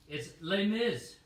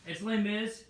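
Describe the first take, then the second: First: Slow, louder, mock-annoyed announcement; oddly angry. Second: Higher, louder, upbeat restart; fresh start. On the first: Announcing the musical record, sounding oddly angry. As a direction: bite out the title, slow and a bit cross. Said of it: "I don't know why I'm getting angry". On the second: Host restarting the Les Mis pitch, upbeat. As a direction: reset and sell it brightly. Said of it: "All right". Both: Real, not acted.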